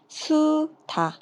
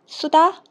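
First: The words are read at a slower pace. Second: The words are read at a faster pace.

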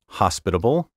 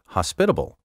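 First: The stress is on the traditional syllable. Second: The stress is shifted to another syllable. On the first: The speaker calls it right. "my first pronunciation of each word was the proper one" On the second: The speaker calls it wrong. "so many speakers now misplace the accent"

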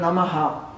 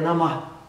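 First: The word ends with a full extra syllable. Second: The word ends with a faint, soft breath. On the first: The speaker calls it wrong. "a gente fala hoje em dia Namaha" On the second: The speaker calls it right. "mas o som adequado é Namah"

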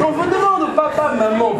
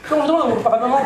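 First: The phrase is read more slowly. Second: The phrase is read quickly, rushed. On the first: The speaker calls it right. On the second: The speaker calls it wrong.

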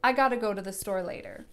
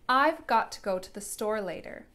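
First: The words are run together into gotta. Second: Each word is said clearly and separately. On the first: "All of my words got smushed together and it became I gotta" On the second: "That was really clear and easy to understand"

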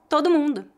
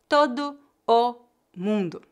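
First: The two o sounds merge into one. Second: The two o sounds are kept separate. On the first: The speaker calls it right. "A pronúncia mais natural seria" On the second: The speaker calls it wrong. "raramente alguém vai dizer todo o mundo"

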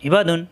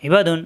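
Both takes have the same delivery.

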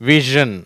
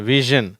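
No difference in how they are said.

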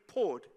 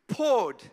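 First: The word is said flatly, without much energy. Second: The word is said forcefully, with strong passion. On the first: The speaker calls it wrong. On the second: The speaker calls it right. "you've got to say it with some passion"

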